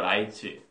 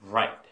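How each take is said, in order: First: It is three Korean syllables, ra-i-teu. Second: It is one English syllable with an English r. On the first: "그 한국말로 하면은 라이트죠" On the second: "Right 이렇게 해봐"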